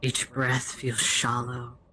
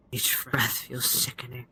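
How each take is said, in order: First: Said in the usual way. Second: Breathy whisper, no voice at all. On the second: Shown as a demonstration. Game master describing the nausea, whispered. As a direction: drop to a sick, creeping whisper.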